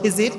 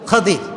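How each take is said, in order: First: The first vowel is an 'i' sound. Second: The first vowel is an 'a' sound. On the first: This is the common way people say it. The speaker calls it wrong. "আমরা বলি খিজির" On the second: This is the original pronunciation. The speaker calls it right. "এটার আসল উচ্চারণ হচ্ছে খাজির"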